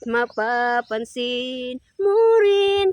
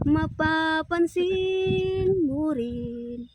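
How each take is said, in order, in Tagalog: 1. Pataas ang tono. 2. Pababa ang tono. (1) "Kato ganiha kay pataas man" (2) "Karon pamubo"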